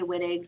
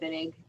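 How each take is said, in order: First: The word begins with a W sound. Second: The word begins with a V sound. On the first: "some people say Wittig" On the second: "is the pronunciation with a V sound? Yeah, because it's German"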